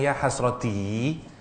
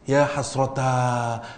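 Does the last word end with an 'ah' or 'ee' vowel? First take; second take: ee; ah. First: The word ends in a smiling 'ee' vowel. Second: The word ends in an open 'ah' vowel. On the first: The speaker sounds happy, not regretful. "hasroti itu bibir kita tersenyum" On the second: The speaker expresses misery and regret. "bunyi a itu untuk menunjukkan rasa sengsara"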